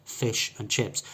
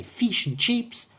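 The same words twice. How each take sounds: First: "fish and chips" with short I in both words; correct short I. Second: "feesh and cheeps" for "fish and chips", pitched high; foreign long E. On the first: Teacher correcting the foreign version, short I sounds. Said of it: "It's incorrect to say fish and chips". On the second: Teacher showing an incorrect foreign version, long E sounds. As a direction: turn both vowels in "fish and chips" into ee. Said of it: "that's foreign". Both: Shown as a demonstration.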